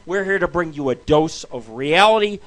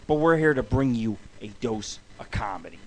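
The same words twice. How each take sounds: First: Said in the usual way. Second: Low, soft, breathy aside; whispered twist on the show intro. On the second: Shown as a demonstration. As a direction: lean in and whisper it to the listener.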